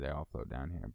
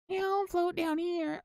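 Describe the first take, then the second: First: It is said in his normal voice. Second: It is said in a put-on creepy clown voice.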